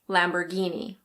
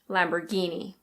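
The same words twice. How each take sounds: First: It is said in an American accent, r pronounced. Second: It is said in an American accent, r pronounced.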